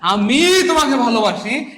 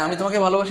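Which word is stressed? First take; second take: আমি; none. First: The word আমি is stressed. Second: It is said plainly with no special stress.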